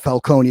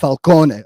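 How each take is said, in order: First: It is pronounced in an Americanized way. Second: It is pronounced in the Italian way. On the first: The speaker calls it wrong. "I hated how they were saying Falcone" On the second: The speaker calls it right. "It's Falcone, okay? It's Italian"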